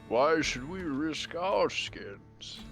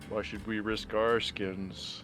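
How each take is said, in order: First: It is said in a sage, wise-sounding tone. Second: It is said in an ordinary, plain tone. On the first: The speaker calls it right. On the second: The speaker calls it wrong.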